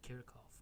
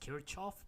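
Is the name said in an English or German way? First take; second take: German; English. First: The name is said with German sounds. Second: The name is said with English sounds. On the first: "It is a German surname, so the correct pronunciation is actually Kirchhoff" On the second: "sometimes it is pronounced Kirchhoff"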